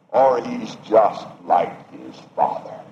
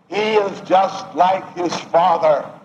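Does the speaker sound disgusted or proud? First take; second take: disgusted; proud. First: The tone sounds disgusted and scornful. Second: The tone sounds proud and admiring. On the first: The son is criticized for resembling his father. "or we have spoken them in disgust" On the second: The son is praised for resembling his father. "we have spoken with pride in those statements"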